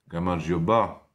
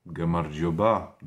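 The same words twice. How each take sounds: Both takes have the same delivery.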